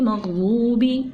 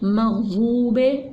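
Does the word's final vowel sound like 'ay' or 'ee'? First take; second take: ee; ay. First: The final vowel is an 'ee' sound. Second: The final vowel is a long 'ay' sound. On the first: The speaker calls it right. "इस तरह से पढ़ेंगे" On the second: The speaker calls it wrong. "इस तरह से नहीं पढ़ेंगे"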